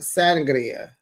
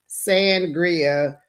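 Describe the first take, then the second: First: It is said with a Spanish accent. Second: It is said with a plain American accent.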